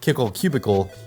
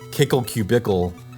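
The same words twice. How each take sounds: First: The second word is said like ordinary 'cubicle'. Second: The second word is said to rhyme with Kickle. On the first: "when people say Kickle Cubicle, even though that's probably correct" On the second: "I always read it as Kickle Cubicle"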